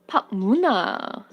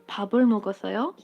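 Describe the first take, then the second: First: It is said in the Busan dialect. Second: It is said in the Seoul dialect.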